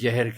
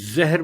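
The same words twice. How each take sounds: First: The word begins with a j sound. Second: The word begins with a z sound. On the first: The speaker calls it wrong. "बजाय ज़हर के" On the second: The speaker calls it right. "तो ज़हर बोला जाए"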